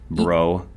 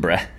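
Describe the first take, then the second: First: The word ends in an 'oh' vowel. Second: The word ends in an 'uh' vowel. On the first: "you said" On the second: "you pronounced it more like bruh"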